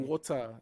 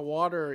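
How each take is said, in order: First: The middle T is a clear, crisp T. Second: The middle T sounds like a soft D.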